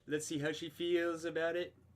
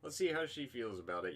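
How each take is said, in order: First: It is said in an imitated, put-on voice. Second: It is said in the speaker's ordinary voice.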